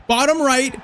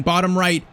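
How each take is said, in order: First: Higher, urging the keeper on; will the dive to be right; urgent plea. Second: Said in the usual way. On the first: Real, not acted. Gamer begging his keeper to guess right, higher plea.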